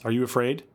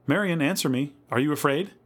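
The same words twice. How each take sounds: First: Gentle rising question, little raised; concerned asking. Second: Higher, insistent worried appeal; anxious calling. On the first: Louise to Marion in the dark, asking. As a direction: check on the child with mild concern. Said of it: "asked Louise". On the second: Louise to silent Marion, anxiously calling. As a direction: press for an answer, rising on the question. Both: A narrator's reading.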